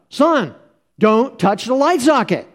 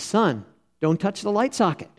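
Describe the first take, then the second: First: It is said a little more loudly. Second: It is said at a normal volume.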